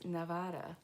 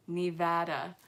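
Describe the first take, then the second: First: "Nevada" with the middle said "vah" as in father; Nevada as ne-VAH-da, broad open a; the ne-VAH-da version of "Nevada"; first try at Nevada. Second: "Nevada" with the middle a as in sad, said a touch louder; ne-VAD-a, short flat a in the middle of "Nevada"; corrected Nevada. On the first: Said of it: "I hope I said that right". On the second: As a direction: redo "Nevada" with the a of cat. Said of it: "I think you're messing with me". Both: Shown as a demonstration.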